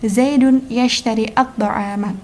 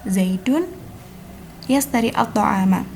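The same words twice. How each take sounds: First: The word has a thick sh sound. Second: The word has a thin s sound. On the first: The speaker calls it right. "yang tepat menggunakan huruf shin tebal" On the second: The speaker calls it wrong. "penggunaan sin di sini kurang tepat"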